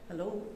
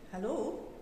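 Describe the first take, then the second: First: It is said in a worried, sad voice. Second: It is said in a happy, excited voice.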